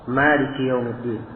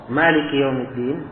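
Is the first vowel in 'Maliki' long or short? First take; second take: long; long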